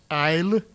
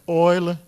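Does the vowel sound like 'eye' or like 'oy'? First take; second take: eye; oy. First: The vowel is an 'eye' sound. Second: The vowel is an 'oy' sound. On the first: This is the creole and older British pronunciation. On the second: This is the current standard pronunciation.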